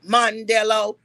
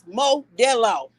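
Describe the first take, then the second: First: An n sound comes before the d. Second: No n sound comes before the d. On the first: This is how the other person says it. The speaker calls it wrong. "in your the way you say it, cause you uneducated" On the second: This is how it is spelled on the beer. The speaker calls it right. "There is no N in that motherfucker. Okay? It is Modelo"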